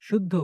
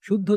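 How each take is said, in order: Both takes have the same delivery.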